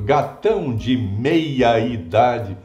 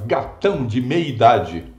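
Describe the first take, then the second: First: Every vowel is pronounced clearly and fully. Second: Some vowels are clipped and run together. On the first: "Eu estou falando" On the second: "O seu editor fala"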